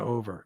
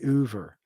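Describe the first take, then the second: First: It is said in a standard accent. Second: It is said in a Philadelphia accent. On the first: "instead of over" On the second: "Philly people say Uber"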